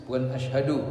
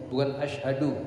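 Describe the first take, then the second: No difference in how they are said.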